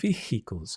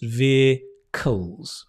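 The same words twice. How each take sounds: First: An H sound is pronounced in the middle. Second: No H sound is pronounced in the middle. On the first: "I've heard some Indian students say" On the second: "in British English, we don't pronounce the H, just vehicles"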